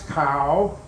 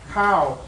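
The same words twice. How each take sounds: First: The pitch rises across the syllable. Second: The pitch falls across the syllable. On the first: "it becomes a rising tone" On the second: It means rice. "That's a falling tone"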